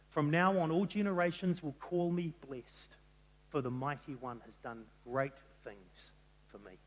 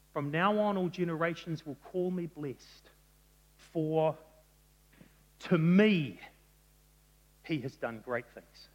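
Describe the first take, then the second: First: Said in the usual way. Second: "to me" set apart by pauses and said louder; stress on to me. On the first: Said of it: "they shift the word order of a sentence to put emphasis". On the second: Shown as a demonstration. Preacher reading Mary's song, stressing "to me". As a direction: lean hard on "to me", pause before and after. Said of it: "the emphasis is on these little words at the end".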